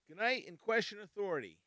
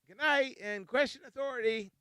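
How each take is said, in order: First: It is said in a harsh tone. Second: It is said in a nice tone.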